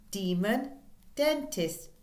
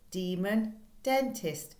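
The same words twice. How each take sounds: The two takes are said the same way.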